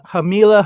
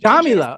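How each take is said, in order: First: The name begins with an H sound. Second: The name begins with a J sound. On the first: The speaker calls it wrong. "if I mispronounce that" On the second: The speaker calls it right. "with a J instead of like an H"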